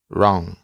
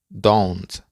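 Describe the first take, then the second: First: The word is pronounced in a reduced form. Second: The word is pronounced in full. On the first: It is the informal way to say it. "de manera informal se pronuncia wrong" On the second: It is the formal way to say it. "De manera formal se pronuncia don't"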